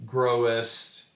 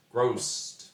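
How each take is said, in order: First: "growest" said in full as grow-est; two-syllable growest. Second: "grossed" squeezed into one syllable. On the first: Teacher shows the full two-syllable "growest". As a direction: spell out both syllables of "growest". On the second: Teacher shows "growest" shortened to one syllable. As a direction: clip "grossed" to a single beat. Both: Shown as a demonstration. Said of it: "into one syllable by saying grossed".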